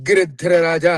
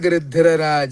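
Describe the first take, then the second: First: The gṛ cluster is said heavily, with extra weight. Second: The gṛ cluster is said lightly, without pressing. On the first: The speaker calls it wrong. "అనకూడదు" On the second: The speaker calls it right. "అప్పుడు తేలిగ్గా పలకాలి"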